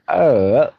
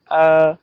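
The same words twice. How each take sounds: First: The pitch dips low, then rises. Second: The pitch stays high and level. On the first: "now third one" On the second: "First tone on A"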